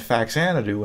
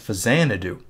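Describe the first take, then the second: First: The middle consonant is pronounced as 'ks'. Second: The middle consonant is pronounced as 'z'. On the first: The speaker calls it wrong. "I was pronouncing it Faxanadu" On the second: The speaker calls it right. "really it's Fazanadu"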